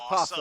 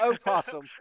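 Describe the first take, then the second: First: The word starts directly with the p sound. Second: The word starts with an extra o vowel. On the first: The speaker calls it right. "In the South, we don't say the O" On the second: The speaker calls it wrong. "not opossum"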